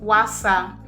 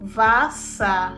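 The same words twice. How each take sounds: First: The word begins with an English W sound. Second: The word begins with a V sound. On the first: The speaker calls it wrong. "It is not pronounced as Wasser" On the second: The speaker calls it right. "It is pronounced as Wasser"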